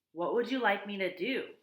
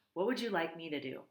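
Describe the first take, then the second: First: Higher, louder robot line that misses; a misjudged, too-lively robot voice; wrong robot voice. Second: Level, even robot voice; steady, calm machine tone; corrected robot voice. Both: Acted. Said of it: "that was probably the wrong voice for the robot".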